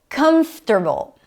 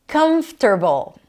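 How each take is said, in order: No difference in how they are said.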